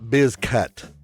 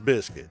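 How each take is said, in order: First: It does not sound like the word biscuit. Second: It sounds like the word biscuit. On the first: The speaker calls it wrong. "My name is not Bizcut" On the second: The speaker calls it right. "It's pronounced like the biscuits you eat"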